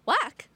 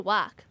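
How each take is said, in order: First: It is said as a loud exclamation. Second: It is said flatly, without exclamation.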